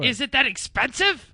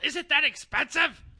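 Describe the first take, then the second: First: The voice is loud and booming. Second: The voice is softer and more controlled. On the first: The speaker calls it wrong. "You are much louder than he is" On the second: The speaker calls it right. "I will use better technique"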